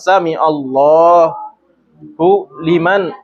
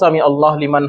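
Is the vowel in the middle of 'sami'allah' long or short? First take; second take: long; short. First: The middle vowel is said long and drawn out. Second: The middle vowel is said short, not lengthened. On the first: The speaker calls it right. "Padahal panjang" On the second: The speaker calls it wrong. "Ada yang bacanya sami Allah tanpa panjang"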